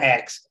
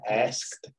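First: The k sound comes before the s. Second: The s comes before the k sound. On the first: The speaker calls it wrong. "Not asked. ... we're not chopping down trees" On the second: The speaker calls it right. "you want to say asked. Did you hear that?"

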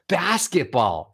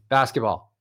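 First: It is said with lively, varied pitch. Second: It is said flatly on one note. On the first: The speaker feels something about it. The speaker calls it right. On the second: The speaker feels nothing special about it. The speaker calls it wrong.

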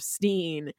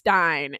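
First: The name rhymes with 'seen'. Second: The name rhymes with 'line'. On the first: The speaker calls it right. "instead of Steen" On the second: The speaker calls it wrong.

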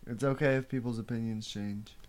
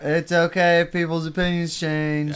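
First: It is said at normal volume. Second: It is said louder.

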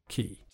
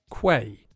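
First: The word is said like "key", with no "w" sound. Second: The word is said with a "kw" sound, like "kway". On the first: The speaker calls it right. "but it's just quay" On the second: The speaker calls it wrong. "it looks like it should be pronounced quay"

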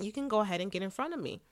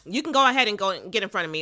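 First: It is said in a calm, kind tone. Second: It is said in an annoyed, grudging tone. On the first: The person gladly lets someone go first. The speaker calls it right. "It was just" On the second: The person resents letting someone go first. The speaker calls it wrong. "without, anger in her voice. She wasn't like"

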